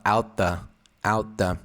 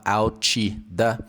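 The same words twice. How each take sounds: First: "out the" run together, the T swallowed; linked out the. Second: "out the" with an extra vowel, like "outchee the"; wrong added syllable. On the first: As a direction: glide "out the" into one beat. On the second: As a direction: split "out the" with a false syllable. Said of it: "criou uma sílaba que nem existia". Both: Shown as a demonstration.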